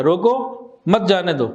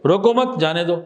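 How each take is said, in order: First: Slow روکو, break, مت جانے دو as one phrase; pause after روکو. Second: روکو مت as one phrase, break, جانے دو; pause after مت. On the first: Teacher contrasting two stops, pausing after روکو. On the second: Teacher contrasting two stops, pausing after روکو مت. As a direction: attach مت to روکو, then release جانے دو. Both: Shown as a demonstration. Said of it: "صرف stop کا فرق آ گیا".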